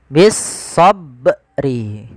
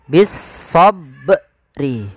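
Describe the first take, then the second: The two takes are said the same way.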